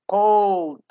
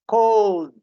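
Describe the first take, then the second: Both takes have the same delivery.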